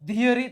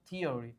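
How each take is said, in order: First: It begins with a voiced 'dh' sound. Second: It begins with a voiceless 'th' sound. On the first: This is what the spelling rule would predict. The speaker calls it wrong. "થવી જોઈએ" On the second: This is the actual exception pronunciation. The speaker calls it right. "પણ થિયરી"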